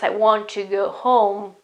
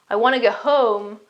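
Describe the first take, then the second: First: The T is said and 'want to' sounds full. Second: The T drops and it sounds like 'wanna'. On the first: "the meaning is exactly want to" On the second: "the final result is wanna"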